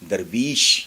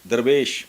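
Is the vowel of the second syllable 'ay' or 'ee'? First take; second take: ee; ay. First: The second syllable has an 'ee' vowel. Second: The second syllable has an 'ay' vowel. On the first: This is the word's original form. The speaker calls it right. "लफ्ज़ दरअसल है दरवीश" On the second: This is the form people commonly use. The speaker calls it wrong. "दरवेश ही आमतौर पे बोला जाता है"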